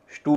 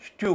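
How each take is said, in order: First: "स्टू" as stoo, no y-glide; plain oo. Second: "स्ट्यू" as styoo, with y before the oo; y-glide. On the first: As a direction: go straight from t to oo in "स्टू". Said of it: "स्टू भी हो सकता था". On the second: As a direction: slip a y between t and oo in "स्ट्यू". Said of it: "S T U का उच्चारण". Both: Shown as a demonstration.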